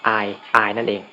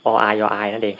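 First: Said in the usual way. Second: ออาย ออายนั่นเอง with a stuck start on อ; mock shy stammer. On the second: Shown as a demonstration. Explaining shyness to viewers, stammering ออาย. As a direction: stammer the อาย as ออาย, tripping on the first vowel. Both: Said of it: "พูดไม่ออกนั่นเอง".

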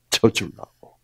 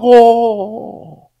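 First: Said in the usual way. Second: "져주려고"를 높고 길게 늘이며 강조; "져주려고"를 천천히 끌어올려 힘주기. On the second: Shown as a demonstration. ("져주려고" 높고 느리게 끌며 강조) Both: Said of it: "그게 침노하라는 거예요".

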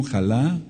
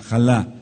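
First: Jalá with the accent on the last A, xa-LA; stressed on the final A. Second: Said in the usual way. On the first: Shown as a demonstration. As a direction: land the weight on the final A of jalá. (jalá con acento en la A final) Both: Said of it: "con acento en la A".

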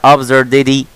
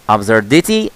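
First: The correct "absurdity", T relaxed into D. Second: ABSURDITY with a clear T, tossed out as a question; the wrong "absurdity", offered questioningly with a T; hard T demo. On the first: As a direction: say "absurdity" ending in dee. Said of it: "ولا". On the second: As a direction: say "absurdity" ending in tee, rising. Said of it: "لا، لا". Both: Shown as a demonstration.

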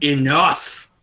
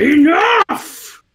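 First: Restrained retelling of a shout; firm command, as if settling a dog; mock shout at everyday volume; absolute authority. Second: High, loud commanding yell; incredibly loud bellow of authority; threatening shout. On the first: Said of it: "with just absolute authority". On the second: Acted. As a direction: let out one explosive, threatening order. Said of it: "in the most threatening voice that I can".

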